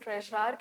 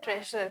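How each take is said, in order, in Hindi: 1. इसका उच्चारण अमेरिकी अंग्रेज़ी लहजे में किया गया है। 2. इसका उच्चारण ब्रिटिश अंग्रेज़ी लहजे में किया गया है। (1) "अगर अमेरिकन इंग्लिश में प्रोनाउंस करते हैं तो इसको ट्रेजरार कहते हैं" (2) "अगर हम ब्रिटिश इंग्लिश जो इंडिया में चलती है इसे ट्रेजरर कहते हैं"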